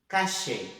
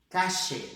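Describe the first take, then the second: The two takes are said the same way.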